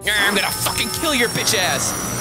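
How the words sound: It is shouted with angry, intense energy. The voice matches the furious look. "she looks like"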